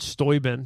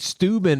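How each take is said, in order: First: The name is said with a non-American pronunciation. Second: The name is said with an American pronunciation. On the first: The speaker calls it right. "Did you know that's how that's pronounced?" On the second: The speaker calls it wrong. "such an American way to say that name"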